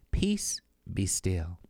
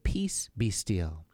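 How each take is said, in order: First: Slow, hushed calming whisper; a slow whispered reassurance. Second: Gently, very slowly, still voiced. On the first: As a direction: breathe it out gently to soothe her. Jesus calms the terrified narrator. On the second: Jesus calms her a second time. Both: A narrator's reading.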